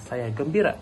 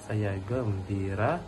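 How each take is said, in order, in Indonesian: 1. Diucapkan dengan suara ceria dan gembira. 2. Diucapkan dengan suara rendah dan datar. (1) "dengan suara yang ceria dan bahagia" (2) "dengan nada suara yang rendah"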